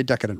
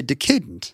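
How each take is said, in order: First: "decadent" as DECK-a-dent; front-stress "decadent" on DECK; modern pronunciation. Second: "decadent" as de-CAY-dent; older pronunciation. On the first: Host on FDR's influence, "decadent" as DECK-a-dent. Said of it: "making us say decadent wrong". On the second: Host explaining the root, "decadent" as de-CAY-dent. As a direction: make "decadent" echo the word decay. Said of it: "it's the same root as decay". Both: Shown as a demonstration.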